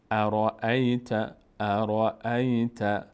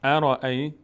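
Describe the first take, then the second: First: ارائیت drawn out slowly, its first alef silent, said raeet; slow syllable-by-syllable ارائیت with no opening alef; teacher stretching ارائیت into its syllables; joined reading. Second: ارائیت with its first alef clearly said, araeet; ارائیت said louder with the opening a sounded; opening alef voiced. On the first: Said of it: "اینجا فتحهٔ همزه هست". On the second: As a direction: start of recitation, ارائیت with the alef heard. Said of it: "اون موقع خوانده خواهد شد". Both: Shown as a demonstration.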